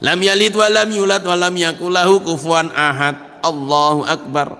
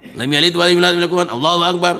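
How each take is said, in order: First: It is recited calmly with a pause before the next phrase. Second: It is recited hurriedly, running straight into the next phrase. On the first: The prayer is performed with proper stillness. The speaker calls it right. "Ini namanya tomak ninah" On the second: The prayer lacks the required stillness and is invalid. The speaker calls it wrong. "tidak sah salatnya. Kenapa? Karena tidak tomak ninah"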